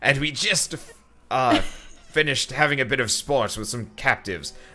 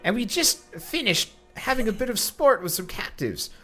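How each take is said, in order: First: It is said in a made-up character voice. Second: It is said in a squealing teenager voice. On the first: "I made up a voice and I'm sticking with it" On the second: "Do you want me to do a teenager voice? Okay"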